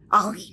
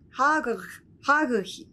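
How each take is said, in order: First: The initial h sound is dropped entirely. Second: A throaty consonant replaces the middle r sound. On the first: "フランス語だと、もう完全にね、もうH も読まないんで" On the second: "ドイツ人にとっては私の名前はちょっと発音がしづらい。ハーグヒみたいになっちゃう"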